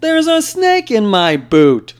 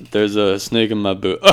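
First: Much higher, louder, slow cowboy drawl; Woody impression. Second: Laughing through it. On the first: Doing Woody's catchphrase for friends, much higher slow cowboy voice. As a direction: stretch the words out slowly in a high cowboy voice. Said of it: "He says". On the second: Pretend. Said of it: "there's be like".

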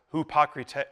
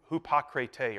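First: "hupocrite" with oo sound, hoo-po-krit-ay; Greek pronunciation. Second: "hupocrite" hoo-po-kri-tay, hesitant retry; "hupocrite" repeated tentatively with oo; Greek pronunciation. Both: Shown as a demonstration. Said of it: "the way that you pronounce hypocrite in that original language was".

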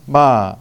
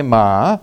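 First: "ma" said with the Thai tone for come; Thai word for come. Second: "ma" said slowly with the Thai tone for dog; Thai word for dog. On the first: Missionary demonstrating Thai tones to the congregation, "ma" meaning come. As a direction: say "ma" as the Thai word come, tone held mid and even. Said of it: "that means come". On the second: Missionary contrasting Thai tones, "ma" meaning dog, said slowly. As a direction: draw out "ma" as the Thai word dog, the tone set apart from the first take. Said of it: "that means dog". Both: Shown as a demonstration.

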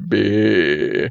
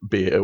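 First: "beer" drawled as a broad Australian "bee-ah"; broad Aussie accent on "beer", stretched vowel; thick Australian accent. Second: Said in the usual way. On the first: Shown as a demonstration. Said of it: "in a really, really thick Australian accent". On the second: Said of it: "we call it".

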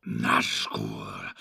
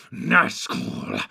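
First: Much lower, fearful hushed Nazgul; hushed dread; shivering. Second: Louder, much lower Nazgul with a shudder; louder fearful hiss; shivering. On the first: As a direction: savour the word Nazgul with dread. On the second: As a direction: spit out Nazgul with foul relish. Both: Acted. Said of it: "shivering and licking his lips".

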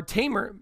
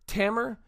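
First: Tamer said TAY-mer, long a as in tame; corrected Tamer. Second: Tamer said TAM-er, short a as in cat; mispronounced Tamer. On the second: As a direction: say Tamer as TAM-er, rhyming with hammer. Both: Real, not acted. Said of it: "or Tamer".

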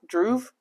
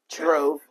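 First: "Drove" said as "druv", questioning; "Drove" said like "druv" with a rising question; mispronounced. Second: "Drove" said properly as "drohv", falling; "Drove" fixed to "drohv" with a little laugh; corrected. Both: Shown as a demonstration.

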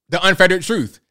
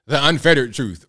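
First: Unfettered punched louder and higher; unfettered said as an emphatic louder repeat; stress on unfettered. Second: Said in the usual way. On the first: Shown as a demonstration. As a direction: hammer the word unfettered.

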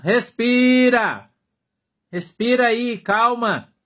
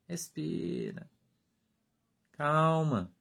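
First: Respira stretched slow and loud, pitched high; insistent call to breathe. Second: Respira breathed soft and slow, almost gone; hushed calming. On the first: Pastor urging a hot-headed brother, drawn-out loud Respira. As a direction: belt out a long Respira. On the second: Pastor soothing a brother about to explode, soft slow Respira. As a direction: let Respira fade into a hush. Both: Shown as a demonstration. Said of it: "Eu falo, Irmão, respira".

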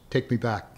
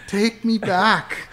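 First: Said in the usual way. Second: Higher, slow, drawn-out repeat of "Take me back"; slow high mock plea. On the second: Retelling the French girl's demand to friends, slow high mock plea.

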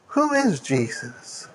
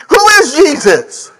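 First: Much softer and slow, almost to oneself; hushed question. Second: Called out high and ringing; ringing question. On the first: Preacher repeating to the congregation, hushed and slow. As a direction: let it sink in quietly. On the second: Preacher asking the congregation, raised and ringing. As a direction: throw the question to the hall. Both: Acted.

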